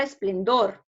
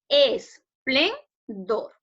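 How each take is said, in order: First: Said in the usual way. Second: "Esplendor" very slowly split into es, plen, dor; syllable by syllable. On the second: Shown as a demonstration. Teacher divides the word for the class, "Esplendor" syllable by syllable. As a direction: say "Esplendor" in three drawn-out, separated syllables. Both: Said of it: "lo vamos a dividir en sílabas".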